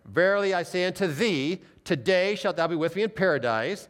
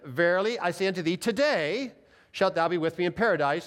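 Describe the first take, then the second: First: The pause comes before the word today. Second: The pause comes after the word today.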